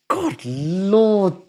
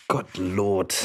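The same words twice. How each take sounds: First: God Lord lifted higher, still soft, exasperated. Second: Low, soft, weary mutter of God Lord; muttered softly. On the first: Streamer repeats God Lord higher, softly exasperated. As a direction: lift God Lord up in disbelief. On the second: Streamer alone at mic, tired soft God Lord. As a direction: drop your voice and sigh out God Lord. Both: Real, not acted.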